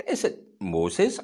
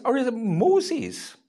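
First: "Moses" as the lady says it, offered as the first option; questioned pronunciation. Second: "Moses" the second way, pitched up and stressed; alternative pronunciation. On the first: Lady at the service querying the minister's pronunciation, "Moses" said the first way. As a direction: say "Moses" as one of two rival pronunciations. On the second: Lady at the service querying the minister's pronunciation, "Moses" said the other way. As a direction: offer "Moses" as the contrasting pronunciation. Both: Retold or imitated. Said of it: "saying it in a different way from everyone".

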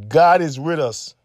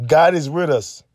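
Both takes have the same delivery.

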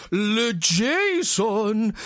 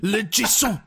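First: Put-on slow, drawn-out French-accented name; French dad voice. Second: Put-on lightly French-accented name; a hint of a French father; French dad voice. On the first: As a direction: stretch it like a pompous French father. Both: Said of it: "the dad comes along and goes".

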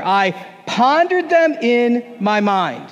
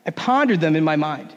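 First: Slow, drawn-out unison line; slow congregational read. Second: Said in the usual way. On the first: Shown as a demonstration. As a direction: lead the room through it slowly. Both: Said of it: "let's all say this last line together".

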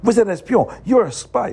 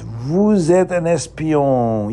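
First: A quick, sharp, higher Vous êtes un espion; quick accusing snap in French; said quickly. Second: Slow, careful Vous êtes un espion; slow French demo; French phrase. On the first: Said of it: "And he said it quickly". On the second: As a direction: say Vous êtes un espion slowly, each word clear. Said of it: "You can say it in French". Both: Shown as a demonstration.

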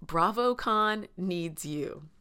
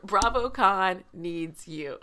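First: Slow, drawn-out BravoCon needs you with weight on BravoCon; quoting the sister. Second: Louder, slow BravoCon needs you, leaning on BravoCon; solemn repeat. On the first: Retold or imitated. Quoting the sister's pep talk, slow and solemn. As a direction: stretch out BravoCon like a rallying call. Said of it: "and I quote, my sister said". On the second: Shown as a demonstration. Echoing the sister's line to the viewers, slow and louder. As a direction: repeat it slowly like a slogan. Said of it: "That's a word".

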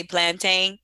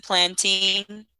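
First: Plantain with last syllable like "tain" in "maintain"; pronounced plan-TANE. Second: Put-on plantain with last syllable like "teen"; pronounced plan-TEEN. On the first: Noting how some other people say plantain, rhymed with "cane". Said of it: "some people say plantain". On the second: Sharing how their community says plantain, rhymed with "teen". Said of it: "We pronounce it plantain". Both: Shown as a demonstration.

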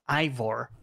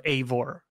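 First: "Ivor" said with a long eye sound first; corrected name pronunciation. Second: "Eivor" said with an ay sound first; game's name pronunciation. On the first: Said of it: "the name is pronounced". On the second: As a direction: say "Eivor" as AY-vor. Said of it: "instead of Eivor". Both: Shown as a demonstration.

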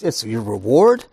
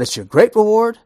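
First: Said in the usual way. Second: "great reward" high and loud; stress on GREAT. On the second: Shown as a demonstration. Preacher stepping up the promise, stressing GREAT. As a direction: build it up, punching "great reward". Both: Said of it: "but it's your great reward".

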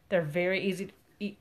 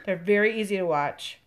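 First: Talking through a burp; words pushed out on a burp. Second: Said in the usual way. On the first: Real, not acted. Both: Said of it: "Excuse me. There's a burp there".

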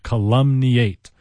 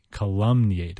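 First: Calumniate said slowly, syllable by syllable: ca-LUM-ni-ate; careful pronunciation. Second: Said in the usual way. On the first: Shown as a demonstration. Teacher introducing a tricky word, slow and careful. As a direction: spell out calumniate slowly and loudly with stress on LUM. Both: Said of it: "weird in its pronunciation".

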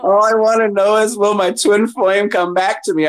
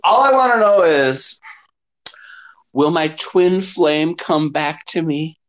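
First: Higher, dreamy client plea, pitched up; mock lovesick client. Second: Mock client. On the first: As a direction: ham up the needy twin flame question.

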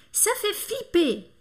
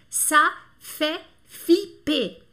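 First: Ça fait flipper high and slow, in one connected run; joined-up model phrase. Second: Ça fait flipper very slow, each syllable separate and louder; teacher spelling out ça fait flipper by sound. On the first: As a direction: lift the pitch and say "Ça fait flipper" as a whole. Teacher repeats the expression joined up. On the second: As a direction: dictate "ça fait flipper" with a pause after every syllable. Teacher dictates the French expression. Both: Shown as a demonstration.

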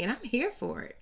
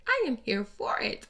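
First: Said in the usual way. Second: I am spelled out in full, both words leaned on; stress on I AM. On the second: Shown as a demonstration. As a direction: land hard on I am.

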